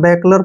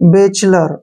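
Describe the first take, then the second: First: The middle consonant is a hard k sound. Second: The middle consonant is a ch sound. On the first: The speaker calls it wrong. "बैकलर पढ़ते हैं, किसी भी तरीके से गलत होता है।" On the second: The speaker calls it right. "सी एच का उच्चारण च हो गया।"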